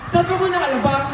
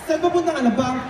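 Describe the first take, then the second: First: It is said in a happy tone. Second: It is said in a sad tone. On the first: "Number one, happy" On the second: "Number two, sad"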